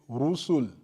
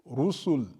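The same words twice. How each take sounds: Both takes have the same delivery.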